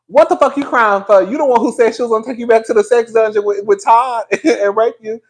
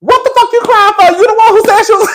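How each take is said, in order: First: Said in the usual way. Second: High, loud mock outrage; cracking up while squealing in fake anger; Kandi. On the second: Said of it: "Kandi was pissed".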